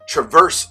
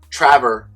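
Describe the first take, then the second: First: Traverse is said like the car model name. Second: Traverse is said unlike the car model name. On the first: The speaker calls it wrong. "I believe I pronounced it Traverse City Whiskey Company" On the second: The speaker calls it right. "I believe I got the uh, pronunciation correct this time"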